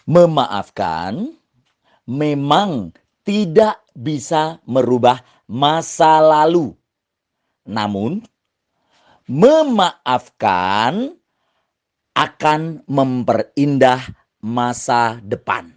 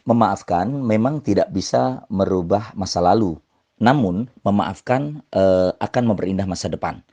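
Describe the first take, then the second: First: It is said with emphasis, energy and pauses. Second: It is said flatly, without emphasis or energy.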